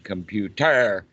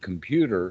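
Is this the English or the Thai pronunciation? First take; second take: Thai; English. First: It is said with a Thai pronunciation. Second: It is said with an English pronunciation. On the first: "is said computer in Thai" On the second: "the word computer in English"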